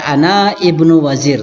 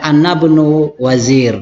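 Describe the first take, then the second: First: The vowel starting the second word is pronounced. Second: The vowel is dropped and the words run together. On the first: The speaker calls it wrong. "bisa dibaca ana ibnu wazir, tapi tidak keren lah" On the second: The speaker calls it right. "kita langsung baca"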